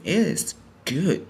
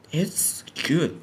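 First: Slow, drawn-out "It is good" with IS stressed. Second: Said in the usual way. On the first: Real, not acted. Reviewer insisting on the animation's quality, stress on "is". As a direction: lean hard on "is", stretching the words out. Repeats verdict with added emphasis.

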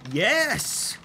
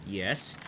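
First: High, loud, drawn-out cheer; triumphant yes. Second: Said in the usual way. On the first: Real, not acted. Player solving the puzzle, triumphant cheer.

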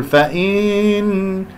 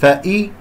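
First: فإن with kasra stretched; wrong take. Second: فإي with the kasra dragged; wrong take. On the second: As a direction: show the error in فإي. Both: Shown as a demonstration. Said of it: "خطأ".

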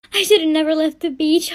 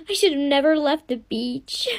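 First: Said in the usual way. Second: Sobbing regret. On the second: Acted. Girl in labor regrets leaving.

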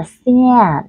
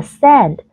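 First: SAND slow and drawn out, like "si-an"; căng, hơi mũi. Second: A quick relaxed e in SEND; âm e bình thường. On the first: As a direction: stretch SAND with a tense nasal a. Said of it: "từ thứ hai là". (SAND kéo dài, âm a căng) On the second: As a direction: SEND with a short, plain e. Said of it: "từ thứ nhất đọc lại là". (SEND đọc âm e bình thường) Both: Shown as a demonstration.

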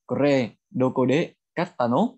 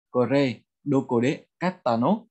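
No difference in how they are said.

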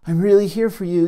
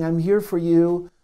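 First: Really leaned on, a bit quicker; stress on really. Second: Said in the usual way. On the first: Shown as a demonstration. Observer self reassuring the hurting part, stress on really. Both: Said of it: "I have this observer self that can say".

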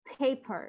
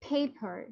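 First: Said in the usual way. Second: পেপার with a puff of air on each p; aspirated p. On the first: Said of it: "এটা কিন্তু আমরা পেপার বলে থাকি". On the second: Shown as a demonstration. Teacher modelling the breathy p for students. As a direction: blow air out on both p sounds in পেপার. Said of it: "যদি আপনি exact ওয়েতে pronounce করতে চান".

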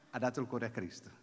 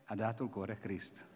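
No difference in how they are said.

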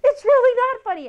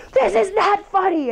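First: Much higher, pitched-up mock protest; mock angry insistence. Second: Higher, clipped mock anger; mock angry retort. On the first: Angry coworker insisting to the smiling one, high mock protest. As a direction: act out the fuming coworker cracking, hammed up. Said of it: "And they're like". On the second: Seething coworker to the one smiling, mock anger. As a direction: act out the fuming coworker, lightly. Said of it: "the person who's seething mad is like".

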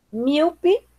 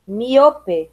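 First: Said in the usual way. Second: "miope" as mi-O-pe; Spanish stress. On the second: Shown as a demonstration. Teacher reading the list, "miope" with Spanish stress on O. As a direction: stress O in "miope", clear final e. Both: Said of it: "diferença entre as palavras heterotônicas".

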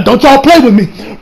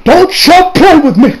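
First: Louder, higher mock warning; half-joking warning. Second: Slower, higher, louder, each word pressed; mock warning, stressed. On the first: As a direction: warn the filmmakers, half joking. Repeated warning. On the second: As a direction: drive the warning home, mock furious. Repeated warning, stronger.

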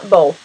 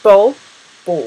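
First: Bowl said slowly, with lips barely shaped; bowl with relaxed lips, drawn out; open vowel. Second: Bowl said with relaxed, barely rounded lips; open vowel. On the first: Teacher contrasts bowl with the rounded vowel of bow. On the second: Teacher repeats bowl with loose, unrounded lips. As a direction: let bowl come out with little lip shape. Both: Shown as a demonstration. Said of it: "pas de trop de forme sur les lèvres".

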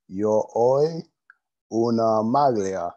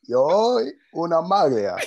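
First: Slow careful Italian; Italian phrase. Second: Louder, higher Italian phrase; Italian phrase again. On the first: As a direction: sound out the Italian slowly. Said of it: "I'm working on my Italian". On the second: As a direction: repeat it clearly and louder. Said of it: "What did you say?". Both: Shown as a demonstration.

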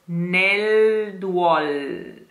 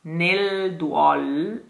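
First: "nel duol" very slow, dark back L. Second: "Nel duol" with a brief back L; touch the L in "Nel duol" lightly. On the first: Diction coach slowly shows the back L in "nel duol". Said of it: "Quite a back L". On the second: Teacher models a light L in "Nel duol". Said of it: "don't let the L sound too much". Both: Shown as a demonstration.

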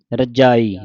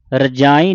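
First: ਰਜਾਈ with pure vowels, no nasal; without bindi. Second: ਰਜਾਈ with a nasal aa-ee; nasalized vowel. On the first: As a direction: keep ਰਜਾਈ free of nasal sound. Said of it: "ਰਜਾਈ ਕਹਿਣਾ". (ਰਜਾਈ ਬਿਨਾਂ ਬਿੰਦੀ) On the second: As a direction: add bindi nasal to ਰਜਾਈ. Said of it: "ਬਿੰਦੀ ਨਹੀਂ ਲਾਉਣੀ". (ਰਜਾਈ ਬਿੰਦੀ ਨਾਲ) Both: Shown as a demonstration.

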